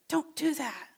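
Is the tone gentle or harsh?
gentle. It is said in a gentle, kind tone. The request is made kindly. "He could say it nicely"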